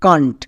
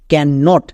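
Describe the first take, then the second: First: It is said as one contracted syllable. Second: It is said as two separate full words. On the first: The speaker calls it right. "একসঙ্গে উচ্চারণ করব কান্ট" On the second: The speaker calls it wrong. "এখানেও আমাদের দুটো word আছে"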